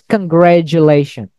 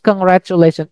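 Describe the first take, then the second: First: The middle consonant is a soft j sound. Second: The middle consonant is a hard t sound. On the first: The speaker calls it right. "It's congratulation" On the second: The speaker calls it wrong. "It's not congratulation"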